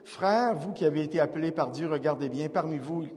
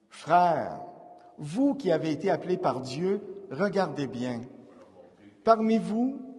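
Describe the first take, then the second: First: The phrases run together without short pauses. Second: A short pause follows each phrase. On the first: The speaker calls it wrong. "il ne faut pas aller dire" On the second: The speaker calls it right. "une mini-pause qu'on fait dans une lecture"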